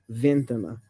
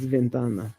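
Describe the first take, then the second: First: The stress is not on the second-to-last syllable. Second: The stress is on the second-to-last syllable. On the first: The speaker calls it wrong. "not ventana" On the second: The speaker calls it right. "It's ventana"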